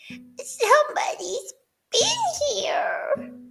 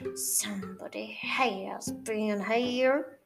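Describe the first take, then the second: First: It is said in a high, squeaky voice. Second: It is said in a softer, gentler growl.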